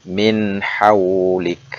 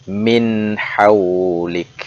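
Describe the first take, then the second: Both takes have the same delivery.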